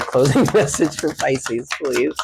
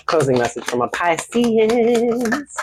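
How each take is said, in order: First: Plain with a laugh. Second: Mock request voice. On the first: Real, not acted. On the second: Shown as a demonstration.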